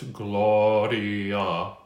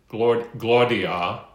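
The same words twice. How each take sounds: First: The first vowel leans open, toward 'ah'. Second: The first vowel is a rounded, r-colored 'or'. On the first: The speaker calls it right. "The O is toward ah. So it's Gloria" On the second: The speaker calls it wrong. "not corny like Gloria"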